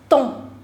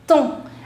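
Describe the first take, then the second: First: The final consonants are left silent. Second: The same.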